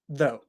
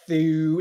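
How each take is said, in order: First: The word ends in a plain oh vowel. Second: The word does not end in a plain oh vowel. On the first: The speaker calls it right. "it just makes an O sound" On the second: The speaker calls it wrong. "it's not thu"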